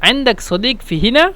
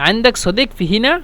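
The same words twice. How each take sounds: The two takes are said the same way.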